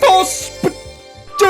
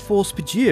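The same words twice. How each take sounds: First: It is shouted loudly with high energy. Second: It is said at a normal, unshouted volume. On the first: The speaker calls it right. "let's just do it" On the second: The speaker calls it wrong. "It's not the same when I don't shout it"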